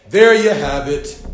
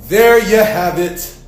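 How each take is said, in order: Both takes have the same delivery.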